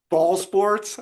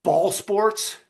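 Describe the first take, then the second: First: Echoing the baffled ball sports line; lightly mocking the shop owner's disdain; quoting with scorn. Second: Puzzled, higher ball sports question; baffled scorn. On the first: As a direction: repeat it as a dismissive question. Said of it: "I always think about that". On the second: Retold or imitated. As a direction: sniff at the whole idea. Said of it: "And Hussein goes".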